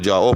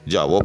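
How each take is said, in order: First: The vowels run together without a v sound. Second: A v sound is heard between the vowels. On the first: "हमज़ा के अ, एतबार से इसको जाओ पढ़ा जाता है" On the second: "वाव के एतबार से जो है वो जावो पढ़ा जाता है"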